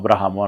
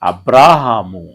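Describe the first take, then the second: First: The vowel after 'br' is short. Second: The vowel after 'br' is long. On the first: The speaker calls it wrong. "బాకున్న దీర్ఘం ఏదైతే ఉంటుందో దాన్ని short form చేసేస్తాం" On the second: The speaker calls it right. "కానీ పలకాల్సింది ఏంటంటే"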